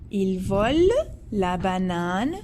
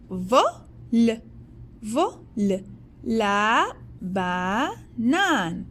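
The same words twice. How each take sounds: First: Said in the usual way. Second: 1 slow teaching repeat. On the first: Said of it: "second plain take". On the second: Shown as a demonstration. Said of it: "slow repeat for pupils".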